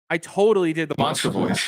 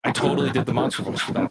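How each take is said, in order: First: Said in the usual way. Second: Whispered fast, stifling a laugh; amused whisper. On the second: Real, not acted. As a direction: giggle it under your breath. Repeats it, amused, under breath.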